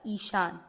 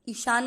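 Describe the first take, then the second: First: The first vowel is long. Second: The first vowel is short. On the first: The speaker calls it right. "ई की मात्रा यहाँ पर है बड़ी" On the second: The speaker calls it wrong. "ईशान नहीं होता"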